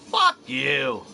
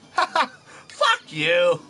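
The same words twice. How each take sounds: First: It is said with a somewhat aggressive edge. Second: It is said in a light, joking tone. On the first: The speaker is being confrontational. "Now you can tell I'm a little more a little more aggressive" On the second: The speaker is only joking. "Now you can tell I'm I'm messing around"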